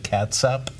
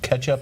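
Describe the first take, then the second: First: It is pronounced like cat-sup. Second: It is pronounced like ketch-up. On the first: "and then catsup" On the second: "we have a couple pronunciations of ketchup"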